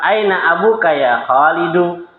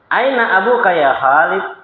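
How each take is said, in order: First: The last word ends with a final u vowel. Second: The last word ends without a final vowel. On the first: This is the formal grammatical form. "Ini standar kaidah" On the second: This is the casual conversational form. "untuk percakapan yang lebih biasa itu disukun"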